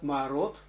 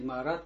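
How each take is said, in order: First: The final syllable has an 'o' vowel. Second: The final syllable has an 'a' vowel. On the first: The speaker calls it right. "а мы читаем это как «меорот»" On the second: The speaker calls it wrong. "не «маарат»"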